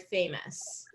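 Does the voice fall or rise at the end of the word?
fall. The pitch falls at the end of the word. The speaker calls it right. "first syllable stress for famous"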